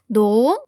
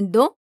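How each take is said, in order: First: The vowel in the word is long. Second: The vowel in the word is short. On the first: The speaker calls it right. "Porque tem uma vogal longa" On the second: The speaker calls it wrong. "então não é do"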